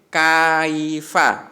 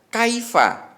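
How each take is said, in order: First: The first syllable is drawn out long. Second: The first syllable is short, one beat. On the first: The speaker calls it wrong. "tidak boleh kaifa, tidak boleh seperti itu" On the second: The speaker calls it right. "itu hanya satu ketukan, pendek ya"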